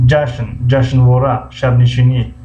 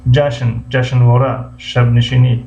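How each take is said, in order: Both takes have the same delivery.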